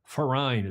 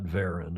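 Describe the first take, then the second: First: The word begins with an F sound. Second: The word begins with a V sound. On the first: The speaker calls it right. "as you would say auf Deutsch in German. And the V is pronounced like an F" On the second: The speaker calls it wrong. "it's not Verein"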